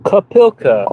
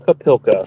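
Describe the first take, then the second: First: Kapilka said high and slow with a falling end, ka-PIL-ka; careful pronunciation try. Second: Kapilka said at normal pitch with a falling end, ka-PIL-ka; plain pronunciation. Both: Shown as a demonstration. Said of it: "know how to pronounce that better".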